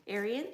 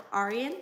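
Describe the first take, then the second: First: Arian said with an "AIR" start, as in "air"; "Arian" with an "eh" first vowel; pronunciation check. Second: Arian said with an "AR" start, as in "car"; "Arian" with an open "ah" first vowel; pronunciation check. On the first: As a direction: ask "Arian" as AIR-ee-an, rising. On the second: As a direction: ask "Arian" as AR-ee-an, rising. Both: Shown as a demonstration. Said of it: "Is it Arian or Arian?".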